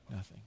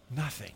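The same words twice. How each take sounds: First: "Nothing" much softer, almost to oneself; softer echo. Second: Said in the usual way. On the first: Shown as a demonstration. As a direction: let "Nothing" fall away quietly. Second take dropped much softer.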